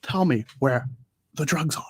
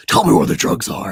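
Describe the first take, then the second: First: Lightly voiced actor impression; a hint of the famous actor, broken into short phrases; Pacino. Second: Hoarse, unvoiced parody growl; Batman. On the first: Mimicking the parody's actor voice, lightly put on. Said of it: "I like it when he's doing Pacino". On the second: Mocking how the hero gets his voice, rasped growl. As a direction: growl it out like a spoof superhero. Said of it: "make fun of how Batman gets his voice".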